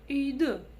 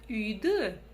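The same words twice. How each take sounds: First: The final vowel sounds between hard and soft. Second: The final vowel sounds between hard and soft.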